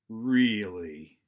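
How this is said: It is quiet, slow and low, sounding annoyed. The speaker is upset by the news. "I'm going to bring the volume down. I'm going to bring the inflection down. I'm going to slow down the word"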